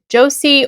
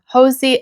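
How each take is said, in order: First: The name begins with a J sound. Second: The name begins with an H sound. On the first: "the J is pronounced as a J sound" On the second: "pronounced with our H sound"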